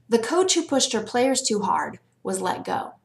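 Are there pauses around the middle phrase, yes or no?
no. It is read straight through without pauses.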